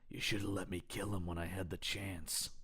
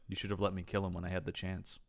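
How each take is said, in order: First: It is said with dramatic, heavy intensity. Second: It is said flatly, in a monotone. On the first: The speaker calls it wrong. "I'm I'm adding more to it than that" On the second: The speaker calls it right. "it's more like"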